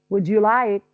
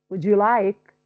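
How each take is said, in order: The two takes are said the same way.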